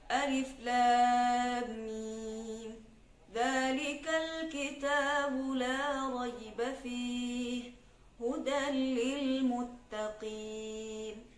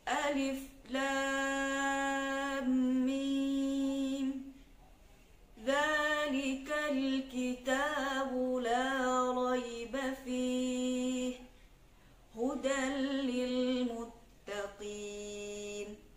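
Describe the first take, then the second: First: The recitation is at a medium speed. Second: The recitation is slow and drawn out. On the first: "Tidak terlalu cepat dan tidak terlalu lambat, sedang-sedang" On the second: "salah satu contoh bacaan tahqiq, yaitu lambat"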